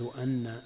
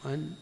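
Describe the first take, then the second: First: The nun is doubled and held. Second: The nun is short and single. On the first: "بالتشديد" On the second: "بالسكون"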